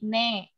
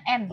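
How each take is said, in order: First: The vowel comes after the n sound. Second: The vowel comes before the n sound. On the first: This is the Turkish letter name. "Kalau dia vokal E terbalik jadi ne" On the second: This is the Indonesian letter name. "Kita kan bacanya N"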